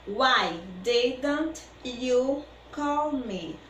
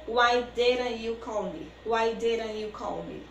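First: Slow and deliberate, each word clear; very slow teaching read; slow model sentence. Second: Quicker, natural speed; brisk everyday speed; faster. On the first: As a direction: spell it out slowly for learners. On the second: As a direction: say it at conversation pace. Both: Shown as a demonstration. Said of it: "Falando mais rapidinho".

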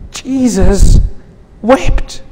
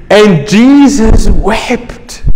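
First: Jesus, long pause, then wept lifted high and softer; Jesus, pause, wept, high and quiet; broken-off emphasis. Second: And Jesus wept, drawn out and slow; solemn slow statement; slow reverent. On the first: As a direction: isolate each word, wept rising and hushed. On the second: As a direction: let the words hang, slowly. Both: Acted. Repeated climax line.

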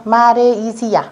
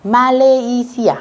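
First: "Malaysia" with a tapped R in place of the L; expected R reading. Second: "Malaysia" drawn out slowly as ma-le-i-si-a, with a clear L; L sound. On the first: Teacher shows students the reading they would expect, "Malaysia" with R. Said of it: "theo quy tắc thì các bạn sẽ đọc là re". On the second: Teacher models the exception for students, "Malaysia" with a clear L. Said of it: "các bạn sẽ đọc hai từ này đều là chữ L". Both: Shown as a demonstration.

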